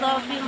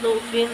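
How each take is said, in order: First: The first vowel is an open 'a' sound. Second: The first vowel is a rounded 'u' sound. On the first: "dhafan boleh dibaca fathah" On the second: "boleh dibaca dhammah"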